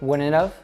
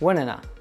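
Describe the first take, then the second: First: The final have is said with its v sound. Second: The final have shrinks to a short uh.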